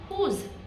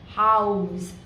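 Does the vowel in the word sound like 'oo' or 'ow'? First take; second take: oo; ow. First: The vowel is pronounced like 'oo'. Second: The vowel is pronounced like 'ow'. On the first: It is read as if it were a French word. The speaker calls it wrong. "if I consider house as a French word" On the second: It is read as an English word. The speaker calls it right. "the O U is making an ow sound, right, in English"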